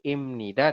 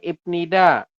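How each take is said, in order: First: An M sound comes before nida. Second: A B sound comes before nida. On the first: The speaker calls it right. "berubah bunyi menjadi M" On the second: The speaker calls it wrong.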